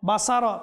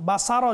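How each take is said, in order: Both takes have the same delivery.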